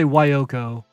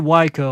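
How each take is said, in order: First: The name has three syllables, with middle o. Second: The name has two syllables, no middle o. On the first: "I don't say Wyoko" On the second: "I always say Waiko"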